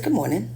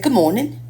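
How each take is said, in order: First: Said in the usual way. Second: Lightly put-on British greeting, rising; a hint of a British accent on good morning; mock British accent. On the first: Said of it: "I said". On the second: Mimicking British golfers in the hotel elevator, light British accent. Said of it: "There was some British guys".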